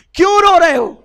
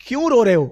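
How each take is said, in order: First: Much higher and louder, calling out; urgent loud asking. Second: Said in the usual way. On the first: Acted. Prophet calling to weeping Abdullah, loud and high. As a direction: ask it like you can't bear his tears.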